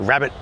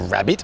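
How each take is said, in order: First: The second vowel is reduced and barely heard. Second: The second vowel is a full, clear I. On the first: The speaker calls it right. "we say rabbit" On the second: The speaker calls it wrong. "we don't say it's a rabbit"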